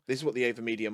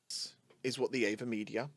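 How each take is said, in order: First: Noise filtering is on, with less background noise. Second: Noise filtering is off, with more background noise. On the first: "with the filters on" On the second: "without the filters on"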